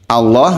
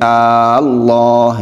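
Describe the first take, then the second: First: The first vowel is short. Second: The first vowel is drawn out long. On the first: The speaker calls it right. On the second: The speaker calls it wrong.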